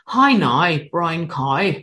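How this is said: It is said in a Northern Irish accent.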